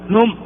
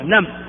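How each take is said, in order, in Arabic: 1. الحركة ضمة. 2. الحركة فتحة. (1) "ولا تقول نم"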